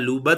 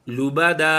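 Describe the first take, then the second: First: The final vowel is cut short. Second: The final vowel is drawn out long. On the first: The speaker calls it wrong. "लूबद भी नहीं करना" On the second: The speaker calls it right. "एक ज़बर को हम अलिफ के साथ बदल कर पढ़ेंगे"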